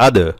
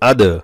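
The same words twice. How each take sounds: First: The d is released with an echoing bounce. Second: The same.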